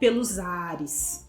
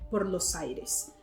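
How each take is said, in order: First: The s before aires sounds like a z. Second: The s before aires is a strong hissed s. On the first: The speaker calls it wrong. "o som do S ... que lembra um Z" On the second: The speaker calls it right. "é o S forte"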